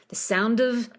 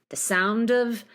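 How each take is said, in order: The two takes are said the same way.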